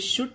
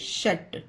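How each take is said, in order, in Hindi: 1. स्वर oo जैसा है, जैसे put में। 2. स्वर uh जैसा है, जैसे cup में। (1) "इसे शुट नहीं पढ़ा जाएगा" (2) "इसे शट"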